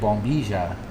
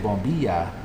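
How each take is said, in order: First: The double L is not a Y sound. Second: The double L sounds like an English Y. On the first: Some other speakers say it this way. "some people say bombilla with" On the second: This is the traditional Spanish way. "in traditional Spanish I would say bombilla"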